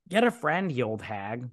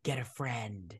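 First: Mock scorn. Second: Curt dismissal. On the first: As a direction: jeer along with mock contempt. Speaker's own scornful echo of reply. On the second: Retold or imitated. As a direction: imitate an unmoved brush-off. Retold curt reply to mother.

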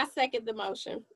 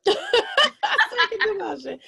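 First: Said in the usual way. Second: Laughing through the words. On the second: Real, not acted. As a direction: repeat it with a high laugh.

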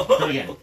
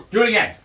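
First: Breathy whispered taunt; whispered dare. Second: High, loud challenge; loud taunt. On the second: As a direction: call it out as a dare. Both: Real, not acted. Teasing dare to son.

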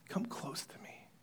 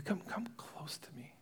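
First: Tender whispered invitation. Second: Soft repeated whispered beckoning. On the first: Joseph beckoning his stunned brothers, whispering. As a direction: draw them in with a whisper. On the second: Joseph coaxing his brothers closer, whispering. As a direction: coax them closer, barely voiced. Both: Acted.

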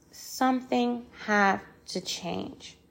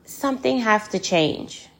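First: Softer, drawn-out plea with gaps between words; weighty, slowed refrain; slow emphatic repeat. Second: Said in the usual way. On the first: Real, not acted. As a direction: repeat it slowly and quietly, letting each word land.

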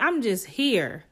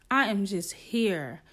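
First: "I'm just here" drawn out slowly with pitch falling; stretched, insistent "I'm just here"; emphatic protest. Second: "I am just here" slow, each word separate; slower, settled insistence on "I am just here"; measured restatement. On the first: Protests innocence, then restates it. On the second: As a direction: spell out "I am" deliberately, falling away. Restates protest with uncontracted words. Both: Retold or imitated.

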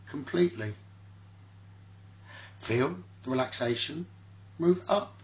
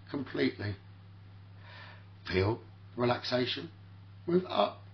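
No difference in how they are said.

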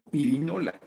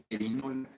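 First: "pirinola" said with an i in the first syllable, pi-ri-no-la; the Mexican way, "pirinola" with i not e; Mexican pronunciation. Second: "perinola" said with a clear e in the first syllable, pe-ri-no-la; dictionary form, "perinola" starting with pe; correct pronunciation. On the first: Host tells viewers how Mexicans say it, pirinola with i. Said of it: "nosotros decimos en México pirinola". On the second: Host gives the Academy's correct form, perinola with e. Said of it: "y es perinola". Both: Shown as a demonstration.

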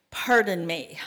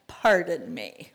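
First: Said in the usual way. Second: A slow take with a laugh through Pardon. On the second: Acted. Gideon doubting God's call, slow laughing echo. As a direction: let the laugh spill into Pardon me.

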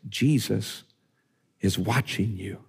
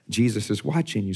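First: A hint of a hushed, spooky voice from nowhere; eerie hidden voice. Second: Said in the usual way. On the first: Preacher voicing a parrot to a burglar, mild spooky hush. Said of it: "he hears a voice that says this". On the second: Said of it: "he's like".

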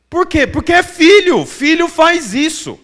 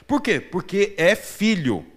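First: Higher and louder, the answer hammered home; emphatic preaching. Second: Gentle answer. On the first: Preacher booming the answer to his congregation. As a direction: proclaim it to the whole church. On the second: Preacher repeats his point gently. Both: Acted.

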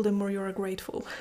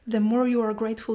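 First: Said in the usual way. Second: "more" pushed louder and faster; reading her notes aloud, leaning hard on "more"; stress on more. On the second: Shown as a demonstration. Reading from her notes, punching "more" in "The more you are grateful". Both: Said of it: "one sentence that I have written here in my notes".

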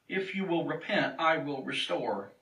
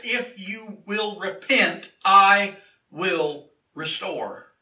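First: Quieter, quicker repeat of a promise; softer restatement. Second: Very slow, weighty declaration with gaps between words; slow emphatic promise. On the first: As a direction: let it settle, softly and simply. Same promise repeated more softly. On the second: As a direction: proclaim it word by word from the pulpit. Preacher declares promise, then repeats it. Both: Acted.

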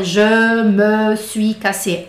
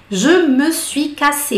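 First: Je me suis cassé, drawn out and spelled out; slow careful French. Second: Je me suis cassé, every syllable spelled out slowly; careful full French. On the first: Teacher showing the over-careful way, not sung. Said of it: "Ele não fala, "Je me suis cassé". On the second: Teacher showing what the singer does not say. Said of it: "Ele não fala". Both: Shown as a demonstration.

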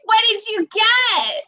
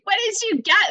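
First: High, loud, slow booming call; booming mom voice. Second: High, louder mock call; booming mom voice. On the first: Retold or imitated. Mom calling through the doorbell camera, booming. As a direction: boom it out like a mom startling you. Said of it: "I just hear this booming voice". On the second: Mom startling daughter again through doorbell, mock boom. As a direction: replay mom's startling boom. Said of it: "bombarded with this voice".

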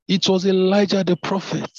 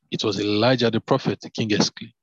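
First: Much higher, louder exclamation of recognition; exclaimed. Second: Said in the usual way. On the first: Shown as a demonstration. King recognising the prophet, exclaiming in alarm. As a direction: cry out the name as the king realises who it was. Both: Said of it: "I'll take that again".

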